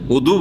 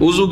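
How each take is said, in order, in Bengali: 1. মাঝের ব্যঞ্জনটি একটি D ধ্বনি। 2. মাঝের ব্যঞ্জনটি একটি Z ধ্বনি। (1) "উদু বলেন, দদ দিয়ে আছে" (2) "উজু কেন বলছেন?"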